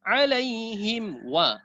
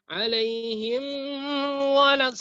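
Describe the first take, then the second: First: Alaihim wa flowing straight into wa; slow alaihim wa without a break; join to waw. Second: Alaihim then a pause before walad; wrong break. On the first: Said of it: "Langsung masuk ke waw". (langsung bersambung ke waw) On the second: (bacaan salah, terputus sebelum walad) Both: Shown as a demonstration.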